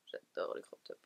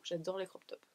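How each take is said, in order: First: A low whispered echo. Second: Said in the usual way. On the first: Real, not acted. Vlogger whispering her love of crop tops to herself. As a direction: breathe it out to yourself, unvoiced. Repeats line under breath.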